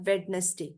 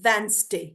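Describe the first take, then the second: First: The middle d sound is pronounced. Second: The middle d sound is left out. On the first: The speaker calls it wrong. "This is not वेडनेसडे" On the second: The speaker calls it right. "This is वेंसडे"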